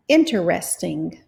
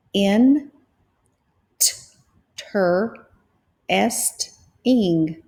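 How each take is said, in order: First: Said in the usual way. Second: In, t, ter, est, ing split into separate beats; syllable by syllable. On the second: Shown as a demonstration. Teacher splitting Interesting into syllables for students. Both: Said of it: "So let's try this word".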